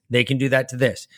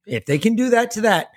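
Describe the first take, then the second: First: Said in the usual way. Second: First THAT pitched high; stress on THAT. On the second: Real, not acted. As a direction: lift the word THAT. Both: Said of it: "And that's all I'm saying".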